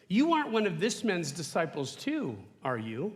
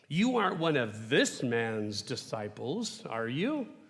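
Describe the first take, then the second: First: It sounds like a passive, neutral inquiry. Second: It sounds demeaning, with a trace of disgust.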